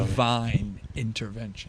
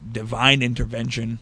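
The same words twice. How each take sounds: First: It is said slowly in a sultry voice. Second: It is said at a normal, plain pace.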